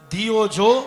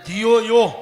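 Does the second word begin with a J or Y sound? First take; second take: J sound; Y sound. First: The second word begins with a J sound. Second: The second word begins with a Y sound. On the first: The speaker calls it right. "એની જગ્યાએ શું બોલવું?" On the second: The speaker calls it wrong. "આ ખોટું છે"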